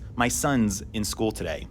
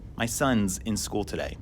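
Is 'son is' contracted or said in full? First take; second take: contracted; contracted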